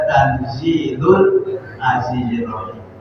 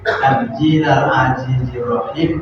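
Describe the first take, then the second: First: The first word ends with a 'u' vowel. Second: The first word ends with an 'a' vowel. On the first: The phrase is the predicate of an omitted subject. "boleh dibaca tanzilul azizir rahim" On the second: The phrase is the object of an omitted verb. "boleh dibaca tanzila"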